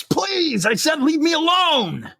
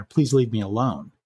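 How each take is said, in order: First: High-pitched panicked scream. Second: Said in the usual way. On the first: Retold or imitated. Trapped woman begging a man in the elevator, screaming. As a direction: scream the plea, pitch shooting right up. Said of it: "she screams".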